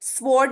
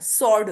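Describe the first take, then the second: First: A w sound follows the s. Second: No w sound follows the s. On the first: The speaker calls it wrong. "स्वॉर्ड नहीं होता" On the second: The speaker calls it right. "सॉर्ड होता है"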